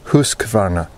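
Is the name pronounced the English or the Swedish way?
Swedish. It is pronounced with a Swedish-style accent. The speaker calls it right. "the proper pronunciation is"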